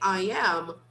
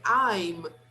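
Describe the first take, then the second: First: It is said as two syllables. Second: It is said as one syllable. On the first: "we say two syllables" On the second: "we pronounce only one"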